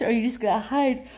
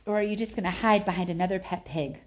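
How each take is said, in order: First: Fast, louder, higher jeer; loud taunt. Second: Said in the usual way. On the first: Acted. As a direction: push the dare hard and quick.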